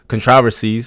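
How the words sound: It is said in a British accent.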